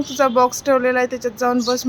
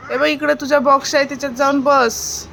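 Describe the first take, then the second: First: Said in the usual way. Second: Calling to the bird. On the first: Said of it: "तिला सांग". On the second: Acted. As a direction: call her over to her box. Mother addresses the bird directly.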